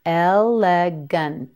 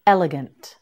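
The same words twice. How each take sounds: First: "Elegant" slowly as el, le, gun, t; sound by sound. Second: Said in the usual way. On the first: Shown as a demonstration. Teacher modelling "Elegant" for learners, sound by sound. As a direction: pull "Elegant" apart slowly, releasing the final t separately.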